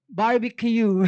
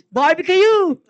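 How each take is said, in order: First: Said in the usual way. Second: Barbecue! called out, higher and louder; louder punchline. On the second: Real, not acted. Repeating punchline to the hosts, louder. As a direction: shout the punchline.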